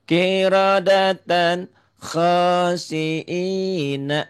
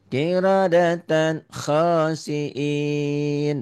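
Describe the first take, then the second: First: The last word ends with a final vowel. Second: The last word stops on the final consonant. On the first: The reciter keeps reading without stopping. "baca apa adanya dulu ya" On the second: The reciter stops at the end of the phrase. "Kalau dihentikan betul"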